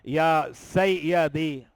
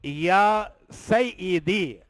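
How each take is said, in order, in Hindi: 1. डबल y के बाद वाला स्वर 'a' है। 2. डबल y के बाद वाला स्वर 'i' है। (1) "ये नहीं पढ़ेंगे" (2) "या के नीचे जेर है"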